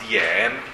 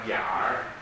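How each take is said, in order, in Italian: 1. La parola finisce senza suono r. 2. La parola finisce con un suono r. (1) "Se non vogliamo pronunciare la R, diventa Dien" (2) "Con la R diventa Diar"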